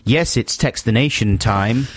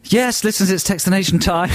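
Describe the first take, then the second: First: Slow, drawn-out radio intro; imitated catchphrase. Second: High-pitched, lively radio intro; own catchphrase. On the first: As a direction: mimic the co-host's stock announcement. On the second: Shown as a demonstration. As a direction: announce it as a showy stock phrase. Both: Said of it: "Well, you always say".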